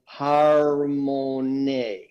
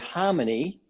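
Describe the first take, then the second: First: The word is said with an Indonesian pronunciation. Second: The word is said with an English pronunciation. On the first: "in Indonesian you pronounce this slightly different" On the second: "in English we say harmony"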